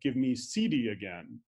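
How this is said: The pitch falls low and fades at the end. It is a command. "a command uh, with a high pitch accent and a low boundary sequence"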